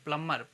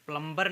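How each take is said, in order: First: प्लम्बर said as "plummer"; silent B. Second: प्लम्बर said as "plum-ber"; B pronounced. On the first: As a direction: say प्लम्बर with only M in the middle. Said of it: "इसको प्लम्बर कहते हैं". (प्लम्बर को "प्लमर" बोलें, ब मौन) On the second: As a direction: say प्लम्बर, voicing B after M. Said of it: "प्लम्बर नहीं कहेंगे". (प्लम्बर में ब का उच्चारण करके) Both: Shown as a demonstration.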